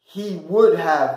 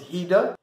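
First: Would have is said in full. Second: Would have shrinks to a short da sound.

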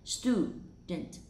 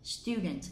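First: The vowel after t is a plain oo. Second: The vowel after t is a yoo sound. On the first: "Trong tiếng Anh Mỹ mình sẽ đọc là student" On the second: "trong tiếng Anh mình sẽ đọc là student"

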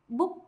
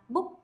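The two takes are said the same way.

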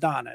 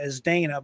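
First: The name is said with its Hebrew pronunciation. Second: The name is said with an American pronunciation. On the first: The speaker calls it right. "it's a Hebrew name, as you were explaining to me, and it's pronounced Donna" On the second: The speaker calls it wrong. "we would say it in America"

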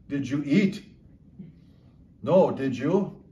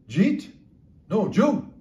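First: It is said slowly, each word clear. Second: It is said fast, words run together.

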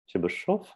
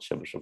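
First: The name is said the native Russian way. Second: The name is said the usual English way. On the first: The speaker calls it right. "because I'm from Russia, where the Chebyshev is from, I can assure you that his last name is Chebyshev" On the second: The speaker calls it wrong. "not Chebyshev"

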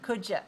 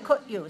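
First: The d and y blend into a j sound. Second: The d and y sounds stay separate. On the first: The speaker calls it right. "say could you. I want to hear you say j" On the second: The speaker calls it wrong. "Don't say could you"

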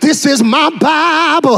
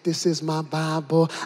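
First: It is said with loud, breathless excitement. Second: It is said calmly and evenly.

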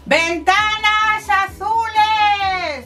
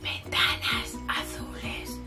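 First: The voice is a very loud shout. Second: The voice is a soft whisper. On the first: "gritando muchísimo"

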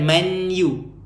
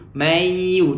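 First: A clear n sound comes before the y. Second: The n sound merges into the y. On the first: The speaker calls it wrong. "dia bukan manyu" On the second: The speaker calls it right. "Masukkan mayu"

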